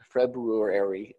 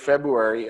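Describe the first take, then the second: First: The first r sound is clearly said. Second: The first r sound is left out. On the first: The speaker calls it right. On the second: The speaker calls it wrong.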